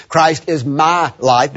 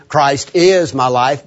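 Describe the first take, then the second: First: "my" stretched and stressed, slow. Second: "is" stretched and stressed, slow. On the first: Preacher explaining the personal statement, stress on "my". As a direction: lean on the word "my". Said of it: "becomes a personal statement". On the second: Preacher explaining the emphatic statement, stress on "is". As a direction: lean on the word "is". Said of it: "becomes an emphatic statement". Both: Shown as a demonstration.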